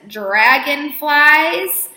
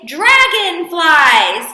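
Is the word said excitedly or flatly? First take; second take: flatly; excitedly. First: It is said flatly, without excitement. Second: It is said excitedly, like an exclamation.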